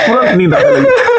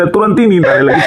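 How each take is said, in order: First: Laughing hard. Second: Chuckling. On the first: Joke repeated with a burst of laughter. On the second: Joke about sleep coming at once. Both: Real, not acted.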